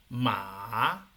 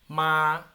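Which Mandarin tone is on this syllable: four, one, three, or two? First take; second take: three; one. First: The syllable is said with the third tone. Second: The syllable is said with the first tone. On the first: "el tres" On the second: "el uno"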